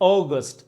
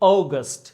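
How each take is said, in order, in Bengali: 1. প্রথম স্বরধ্বনিটি 'oh' এর মতো শোনায়। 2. প্রথম স্বরধ্বনিটি 'oh' এর মতো শোনায়।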